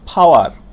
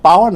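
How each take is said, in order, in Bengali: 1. প্রথম 'p' শ্বাসযুক্ত, প্রায় 'f'-এর মতো। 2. প্রথম 'p' সাধারণ, এতে বাতাসের কোনো ফুৎকার নেই। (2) "পাওয়ার না"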